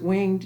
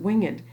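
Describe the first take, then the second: First: The word is said as one syllable. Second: The word is said as two syllables. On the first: The speaker calls it wrong. "you don't pronounce it winged" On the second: The speaker calls it right. "you pronounce it winged"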